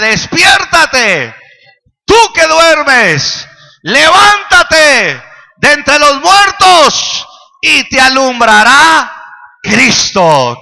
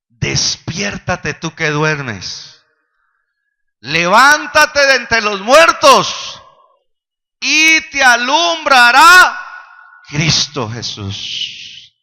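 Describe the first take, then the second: First: It is said in a forceful prophet's voice. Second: It is said in a plain reading voice.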